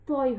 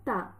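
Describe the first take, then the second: First: The syllable is said heavy and full-mouthed. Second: The syllable is said light and thin. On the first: The speaker calls it right. "ত একটু মোটা করে আদায় হবে" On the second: The speaker calls it wrong. "আমরা অনেকে তা বলে ফেলি"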